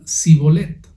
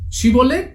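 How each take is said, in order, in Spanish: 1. La palabra empieza con un sonido 's'. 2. La palabra empieza con un sonido 'sh'. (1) "Decían Sibolet" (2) "no lo podían pronunciar bien los de Efraín"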